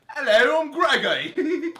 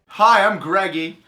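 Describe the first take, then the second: First: It is said in a put-on classy British accent. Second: It is said in his normal American accent.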